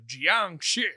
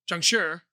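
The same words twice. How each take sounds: First: The word is said with a plain anglicized ending. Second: The last syllable has a slight r-like sound. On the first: The speaker calls it wrong. "there will be people who say" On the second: The speaker calls it right. "no, it's Jiangxi"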